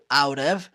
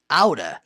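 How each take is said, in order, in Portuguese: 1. As duas palavras são ditas separadamente e por completo. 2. As palavras se juntam numa forma rápida, 'outta'. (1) "pode ser pronunciado out of" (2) "falando rápido, ... ou aura"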